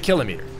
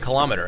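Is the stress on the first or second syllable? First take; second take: first; second. First: The stress is on the first syllable. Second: The stress is on the second syllable. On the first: The speaker calls it right. "You should say kilometer" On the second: The speaker calls it wrong. "for some weird reason, we say kilometer, and I don't like it"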